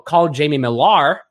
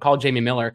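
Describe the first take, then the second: First: The surname ends with a clear 'ar' sound. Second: The surname ends with a plain 'er' sound. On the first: "because you have an A at the end of your name instead of E" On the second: "When I say Jamie Miller into my Apple phone"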